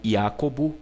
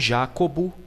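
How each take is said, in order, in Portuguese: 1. A palavra começa com som de y. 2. A palavra começa com som de zh.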